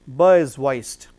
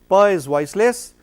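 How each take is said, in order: First: Ba said with the vocal cords buzzing on the b; voiced ba, a lower slow demo. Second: Pa said with a clean unvoiced p, no buzz; crisp voiceless Pa, lips popping open. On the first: Teacher contrasting voiced ba with pa, slow. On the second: Teacher contrasting voiceless Pa for students. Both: Shown as a demonstration.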